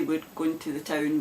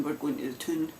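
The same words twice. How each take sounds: First: Town said as in English; "town" with the ow sound; plain town. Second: "toon" said with an oo; Scots toon. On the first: Glaswegian showing the standard word first, town. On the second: Glaswegian showing the Scots word, "toon" with oo. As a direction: town said as "toon", Scots style. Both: Shown as a demonstration. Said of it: "we don't say".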